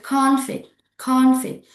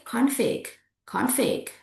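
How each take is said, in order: First: CONFLICT with CON high and strong; noun stress, first syllable. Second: CONFLICT as con-FLICT, longer end; light CON, long FLICT in CONFLICT; verb stress, second syllable. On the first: Teacher contrasts noun with verb, stress on CON. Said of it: "It's different with config". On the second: Teacher contrasts verb with noun, stress on FLICT. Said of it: "the meaning is a verb". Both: Shown as a demonstration.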